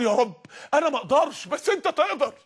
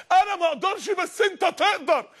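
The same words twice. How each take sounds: First: Said in the usual way. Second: Higher and slow, "انا ما اقدرش" pleading to God; pleading prayer. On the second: Retold or imitated. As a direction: beg it slowly, heart broken. (دعاء متوسل ببطء وبصوت أعلى) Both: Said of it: "الراجل خرج قعد يعيط".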